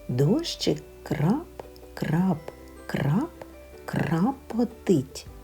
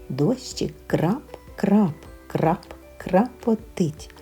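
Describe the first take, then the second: First: The phrase is spoken slowly and carefully. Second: The phrase is spoken at a faster pace. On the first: "правильно і повільно" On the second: "Швидше"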